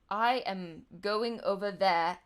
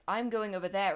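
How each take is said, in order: First: It is said slowly with no linking R sound. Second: It is said quickly with a linking R sound.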